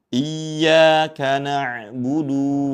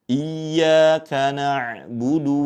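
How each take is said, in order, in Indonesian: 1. Vokal akhir pada na'budu dibaca panjang. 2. Vokal akhir pada na'budu dibaca pendek. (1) "jangan sampai dibaca menjadi bacaan yang panjang... Itu tidak tepat" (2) "yang betul di sini huruf dalnya dibaca pendek"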